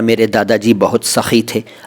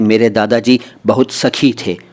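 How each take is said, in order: First: The kh in sakhi is a harsh throaty sound. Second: The kh in sakhi is a plain aspirated stop. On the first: The grandfather was generous. The speaker calls it right. "नुक्ते का महत्व" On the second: The grandfather was a female friend. The speaker calls it wrong. "अगर आप यहाँ कहेंगे ... तो अर्थ बदलेगा ना"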